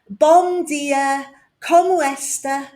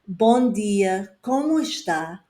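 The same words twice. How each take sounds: First: It is said with an English accent. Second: It is said with a native Portuguese accent. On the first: The speaker calls it wrong. "an English person ... They might say" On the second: The speaker calls it right. "instead of saying"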